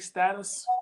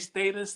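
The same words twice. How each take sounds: First: It is said with a British pronunciation. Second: It is said with an American pronunciation.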